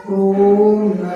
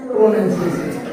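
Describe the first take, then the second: First: प्रोनंसिएशन slow and sing-song, each syllable pulled apart; प्रोनंसिएशन drawn out slowly in clear separate syllables; careful pronunciation. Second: Said in the usual way. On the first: Shown as a demonstration. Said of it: "शुद्ध बोलेंगे तो ये ऐसे हो जाएगा". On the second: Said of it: "हम common भाषा में इसको प्रोनंसिएशन ही बोलते हैं".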